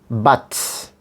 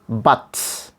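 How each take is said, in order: First: The vowel is a full, open 'uh' sound. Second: The same.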